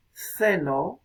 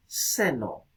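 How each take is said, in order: First: Ceno said slowly with th, as θeno; interdental th. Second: Seno said with a clean s, as seno; plain s. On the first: Teacher giving a minimal pair to students, ceno slowly with th. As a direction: draw out ceno with the tongue between the teeth. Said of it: "O ceno". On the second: Teacher giving a minimal pair to students, seno with s. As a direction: seno with a hissed s, not th. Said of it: "y también seno". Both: Shown as a demonstration.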